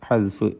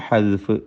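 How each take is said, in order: No difference in how they are said.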